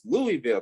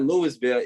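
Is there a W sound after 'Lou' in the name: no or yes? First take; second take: no; yes. First: It has no W sound: Louie-ville. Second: It has a clear W sound: Lewis-ville. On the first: The speaker calls it right. "it's Louisville, Kentucky" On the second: The speaker calls it wrong. "It's not Louisville"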